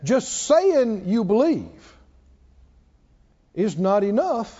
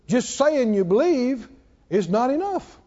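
First: The sentence is spoken very slowly. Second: The sentence is spoken at a normal pace.

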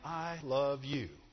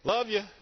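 First: It sounds slow, sincere and heartfelt. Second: It sounds quick, casual and offhand.

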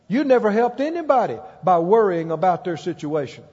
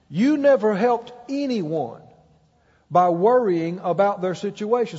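First: It is said at a normal speed. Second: It is said very slowly.

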